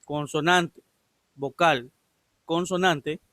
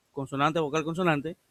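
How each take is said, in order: First: Consonante, vocal, consonante, each word set apart by a clear pause; "consonante, vocal, consonante" spaced out so listeners catch each one; emphatic word by word. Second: Said in the usual way. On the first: Shown as a demonstration. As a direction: spell out "consonante ... vocal ... consonante" as three separate, firm items. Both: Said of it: "escuche bien".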